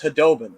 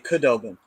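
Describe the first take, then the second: First: The name begins with a breathy H sound. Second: The name begins with a hard K sound. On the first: The speaker calls it right. "That's how you properly say it" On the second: The speaker calls it wrong. "guys who would say Kudobin because it has the K in front"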